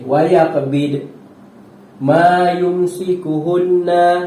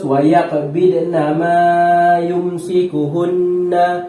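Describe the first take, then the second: First: The reciter stops briefly partway through the phrase. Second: The reciter reads the phrase without any stop. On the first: The reader chooses to stop at the permitted mark. "itu kalau berhenti" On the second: The reader chooses to continue past the mark. "Kalau terus"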